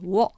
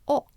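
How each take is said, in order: First: It starts with a clear w sound. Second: It is a plain o vowel. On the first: The speaker calls it wrong. "It's not wo" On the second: The speaker calls it right. "it's more like o"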